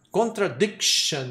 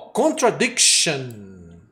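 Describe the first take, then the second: First: Slow Contradiction with the K stop; model word repeated. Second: Slow contradiction, stress on dic; slow model word. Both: Shown as a demonstration. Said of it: "olha o K aí mostrando".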